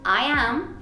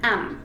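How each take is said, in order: First: It is said as two separate full words. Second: It is said as one contracted word. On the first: "En vez de decir" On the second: "puedes decir sencillamente"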